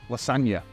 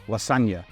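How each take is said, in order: No difference in how they are said.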